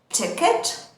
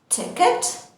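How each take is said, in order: Both takes have the same delivery.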